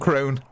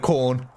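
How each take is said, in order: First: The vowel rhymes with 'bone'. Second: The vowel rhymes with 'born'. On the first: The speaker calls it wrong. "I used to call them Crone" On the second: The speaker calls it right. "instead of Corn"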